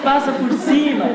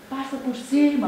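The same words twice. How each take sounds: First: Louder, higher yell of Passa por cima with cima falling hard; mock angry shout. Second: Higher, irritated yell at the car behind; mock angry driver. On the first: Angry driver waving tailgater past, mock shout. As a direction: bark it out like waving the car past. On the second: Driver annoyed at tailgater, mock angry call. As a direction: snap at the tailgater to just pass. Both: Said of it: "a gente também fica com raiva".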